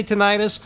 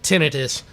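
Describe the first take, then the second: First: Tinnitus with the second syllable stressed, ti-NYE-tus; ti-NYE-tus pronunciation. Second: Tinnitus with stress on the first syllable, TIN-ni-tus; TIN-nuh-tus pronunciation. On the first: Friend states his own way, ti-NYE-tus. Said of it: "I say tinnitus". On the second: Friend offers the other way to say it, TIN-nuh-tus. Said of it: "However you wanna say it". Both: Shown as a demonstration.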